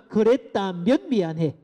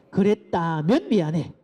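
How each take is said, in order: First: Slow, stressed "그랬다면 미안해"; slow demo apology. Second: Slow "그랬다면 미안해" with a falling 미안해; slow demo apology. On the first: Lecturer modelling a conditional apology slowly. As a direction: lean on 그랬다면, unhurried. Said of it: "따라해 봅니다". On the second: Lecturer leading parents in the repeat, slowly. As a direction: model it once more, calmly. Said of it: "한 번 더 따라해 봅시다". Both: Shown as a demonstration.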